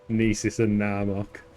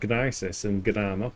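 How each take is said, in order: First: The names start with a silent G. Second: The names start with a hard G. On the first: "Dogs don't gnaw bones, do they?" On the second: "I've always pronounced it"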